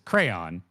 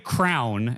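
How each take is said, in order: First: The word is said like crayon. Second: The word is said like crown. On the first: This is the accepted way to say it. "it's crayon, right?" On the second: This is how the speaker said it as a child. "I used to say crown as a kid"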